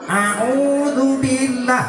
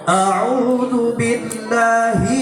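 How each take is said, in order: First: It is said with the nose pinched, sounding nasal. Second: It is said with open nose, sounding clear. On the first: The speaker calls it wrong. "hidungnya ditutup ... itu bukan makhrajnya" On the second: The speaker calls it right. "Ain bukan di hidung"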